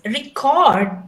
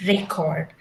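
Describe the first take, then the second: First: "record" as re-CORD, louder second syllable; stress on second syllable. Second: "record" as REC-ord, first syllable stressed. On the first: Teacher giving the verb, "record" stressed late. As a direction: punch the end of "record". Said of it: "you're recording a video". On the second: Teacher naming documents, "record" stressed at the front. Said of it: "then you call it as". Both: Shown as a demonstration.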